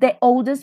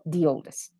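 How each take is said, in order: First: The word 'the' has a weak 'uh' vowel. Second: The word 'the' has a long 'ee' vowel. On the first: The speaker calls it wrong. "Not the oldest" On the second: The speaker calls it right. "but the oldest"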